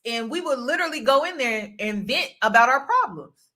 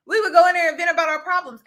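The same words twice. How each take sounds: First: Said in the usual way. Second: "go" punched, higher, louder and fast; louder, faster restatement stressing "go"; emphatic repeat. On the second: Shown as a demonstration. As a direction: rattle "We would go in there and vent about our problems" off fast and high, hitting "go".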